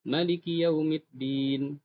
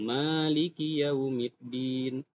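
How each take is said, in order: First: The first vowel of maliki is kept short. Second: The first vowel of maliki is held long. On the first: This is another accepted reading. "ada cara baca lain pendek" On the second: This is the reading used in Indonesia. "Kita panjang"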